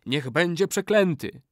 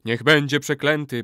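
First: High, falling pronouncement; incanted curse. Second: Louder, emphatic echo of a curse; chorus repeating. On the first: Old man curses any betrayer, incanting. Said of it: "zawołał stary murzyn". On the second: All warriors repeat the curse, loud chorus. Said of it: "powtórzyli wszyscy wojownicy". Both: A narrator's reading.

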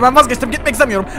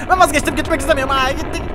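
First: Panicked plea. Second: Frantic repeat of the plea; higher panicked plea. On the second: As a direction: voice jumps higher, pleading to stop. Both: Pretend. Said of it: "durdurabiliyorsun bunu".

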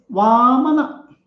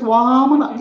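First: Put-on a touch of a cute little boy; cute child. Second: A hint of a sweet little boy; nicely said. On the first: Little boy telling the king his name, lightly cute. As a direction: say it sweetly like a small child. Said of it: "The child cutely says". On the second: Boy repeating his name to the king, nicely. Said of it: "Very nicely he says".

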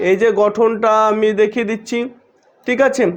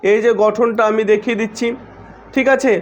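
The two takes are said the same way.

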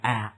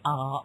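First: Front American "æ" sound for "uh"; American English A sound; American vowel. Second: British English A sound; British vowel. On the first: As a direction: say "uh" as the A in cat. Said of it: "In American we say". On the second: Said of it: "in British English we say". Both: Shown as a demonstration.

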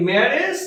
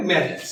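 First: ম্যারেজ with an e ending, like marej; common wrong marriage. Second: ম্যারেজ with a short i ending, like marij; correct marriage. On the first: Teacher to students, showing the wrong ম্যারেজ with -ej. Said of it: "উচ্চারণ না হয়ে". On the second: Teacher to students, giving the correct ম্যারেজ with -ij. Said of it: "সঠিক উচ্চারণ হবে". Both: Shown as a demonstration.

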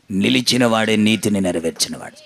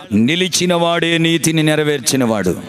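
First: Much lower pitch, sinking at the end; low solemn repeat. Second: Said in the usual way. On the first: Real, not acted. Preacher restating the key line to the congregation, low and solemn. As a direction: drop the voice right down to restate it.

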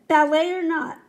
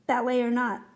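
First: Loud, higher, falling line; raised-voice coach; emphatic echo. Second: Said in the usual way. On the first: A narrator's reading. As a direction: call it out forcefully. Coach's echo, louder first take.

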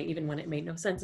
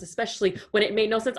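First: Said in the usual way. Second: "especially when it made no sense" quicker and more forceful; emphatic repeat. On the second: Acted. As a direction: lean into "when", pitched up, to top the first remark. Emphatic repeat of previous phrase.

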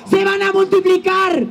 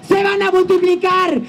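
No difference in how they are said.

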